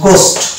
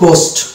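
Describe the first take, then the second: No difference in how they are said.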